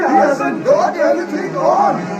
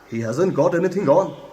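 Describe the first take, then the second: First: It is shouted at full volume. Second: It is said only a bit louder.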